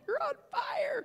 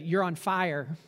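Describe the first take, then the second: First: It is said urgently, with authority. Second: It is said calmly and casually.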